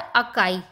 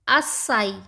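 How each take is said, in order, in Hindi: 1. बीच का व्यंजन k की ध्वनि है। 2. बीच का व्यंजन s की ध्वनि है।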